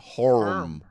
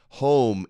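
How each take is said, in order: First: An R sound is added after the vowel. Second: The vowel is said without any R sound.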